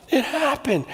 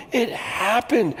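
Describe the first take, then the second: First: Laughing in disbelief. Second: Slow awed repeat. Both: Real, not acted.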